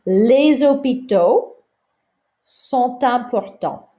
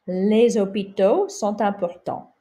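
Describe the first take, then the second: First: Les hôpitaux sont importants slow and high, linking les into hôpitaux with Z; slow teacher model of the sentence; slow liaison model. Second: Said in the usual way. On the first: Shown as a demonstration. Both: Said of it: "not gonna pronounce this final S".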